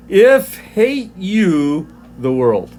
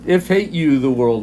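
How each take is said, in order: First: "if hate you the world" read slowly, each word weighted. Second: Said in the usual way. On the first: Shown as a demonstration. Teacher showing the class the Greek word order, slow and weighted. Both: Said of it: "if we did a word for word".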